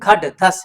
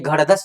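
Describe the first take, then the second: First: The second consonant is an aspirated retroflex stop. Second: The second consonant is a flapped r-like sound. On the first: The speaker calls it right. "ये घड़ धस नहीं घट धस है" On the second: The speaker calls it wrong. "विद्यार्थी गलत गलती क्या करते हैं घट धस के जगह पर घड़ धस पढ़ते हैं"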